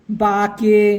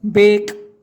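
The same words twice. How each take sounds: First: बाके in two syllables, long aa then ke; wrong letter-by-letter reading. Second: बेक as one syllable, long e, ending on k; correct silent-e reading. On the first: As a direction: misread bake as बाके, sounding the final e. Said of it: "अपन इसको ऐसे नहीं पढ़ेंगे". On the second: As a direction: read bake as बेक, final e silent. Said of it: "तो अपन इसको क्या पढ़ेंगे". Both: Shown as a demonstration.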